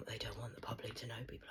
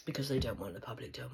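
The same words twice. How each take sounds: First: Drops to a fast, much softer and lower whisper. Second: Said in the usual way. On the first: Real, not acted. Repeating the secret to viewers, now whispered. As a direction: hush it as a secret. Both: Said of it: "whispered repeat".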